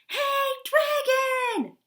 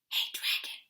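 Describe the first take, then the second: First: It is shouted very loudly. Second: It is whispered very softly.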